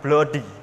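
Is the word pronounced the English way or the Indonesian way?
Indonesian. It is read with Indonesian spelling-based sounds. "dalam bahasa Indonesia tentu kita membaca ini dengan bloody"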